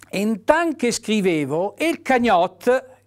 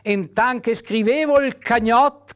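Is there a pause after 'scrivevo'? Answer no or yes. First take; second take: yes; no. First: There is a pause after 'scrivevo'. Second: It runs on with no pause after 'scrivevo'. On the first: The speaker calls it right. "la virgola non solo ti obbliga ad una pausa" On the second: The speaker calls it wrong. "se io leggessi senza virgole"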